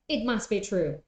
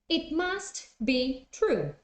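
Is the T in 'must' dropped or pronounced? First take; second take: dropped; pronounced. First: The T in 'must' is dropped, words run together. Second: The T in 'must' is pronounced separately.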